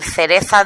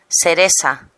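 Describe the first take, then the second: First: The middle consonant sounds like 'th'. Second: The middle consonant sounds like 's'. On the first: "en lugar de decir cereza" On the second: "un andaluz diría... no diferencia la C y la S"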